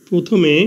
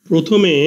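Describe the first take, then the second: No difference in how they are said.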